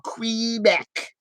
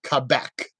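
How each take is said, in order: First: The name is pronounced the common American way. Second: The name is pronounced the non-American way. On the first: The speaker calls it wrong. "I don't go Quebec. I know a lot of Americans that do that" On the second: The speaker calls it right. "it's Quebec, right?"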